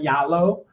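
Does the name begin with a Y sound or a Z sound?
Y sound. It is said the southern way, starting with Y.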